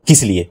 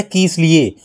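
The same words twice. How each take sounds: First: "किस लिए" quick, with a short first vowel; said quickly. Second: "किस लिए" with "कि" drawn out to a long ee; long first vowel. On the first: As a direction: say "किस लिए" briskly, without stretching "कि". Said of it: "जल्दी से बोल दिया हमने". ("किस लिए" जल्दी से, छोटी इ के साथ) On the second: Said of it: "यहाँ पर दीर्घ की मात्रा है". ("किस लिए" में पहली मात्रा दीर्घ, खींचकर) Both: Shown as a demonstration.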